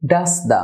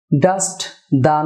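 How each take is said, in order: First: ডাস্ট দা run together as "das-da", t dropped; correct linking. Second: ডাস্ট দা as two words, final t sounded; wrong pronunciation. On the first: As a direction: drop the t of ডাস্ট into দা. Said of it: "একটি সাউন্ডে পরিণত হয়". (ডাস্ট দা মিলিয়ে "ডাসদা") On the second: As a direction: release the t in ডাস্ট before দা. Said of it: "না হয়ে হবে". (ডাস্ট দা, "ট" আলাদা করে উচ্চারণ) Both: Shown as a demonstration.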